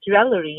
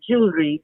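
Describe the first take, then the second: First: Jewelry as JEW-uh-luh-ree, with extra syllables; Indian English pronunciation. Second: Jewelry in two syllables, JOOL-ree; American pronunciation. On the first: Showing how it is said in India, jew-el-ler-ee for jewelry. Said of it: "we say jewelry in India". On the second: Tongue learning to twist the American way, JOOL-ree for jewelry. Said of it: "and it's like jewelry". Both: Shown as a demonstration.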